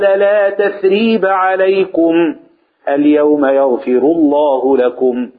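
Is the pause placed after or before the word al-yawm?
before. The pause comes right after alaykum. God has forgiven them today. "مرة وقفنا على عليكم"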